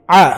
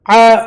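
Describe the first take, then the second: First: Said in the usual way. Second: "ع" as a long 'aa, higher and louder; long vowel. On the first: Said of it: "عين أبفل". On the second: Shown as a demonstration. Teacher spelling for students, long "ع". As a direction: hold the vowel of "ع". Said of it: "مد ألف".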